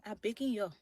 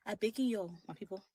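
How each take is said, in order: First: Liberian English, pleading; Liberian accent. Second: Pleading in Liberian English; soft Liberian plea to her people; Liberian accent. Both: Shown as a demonstration. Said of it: "I'm gonna put in my Liberian accent".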